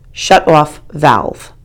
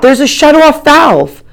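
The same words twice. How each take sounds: First: Said in the usual way. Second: High, loud, slow shout; shouted "shut off valve", loud and slow. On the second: A narrator's reading. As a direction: yell "shut off valve" over the water. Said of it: "I shout".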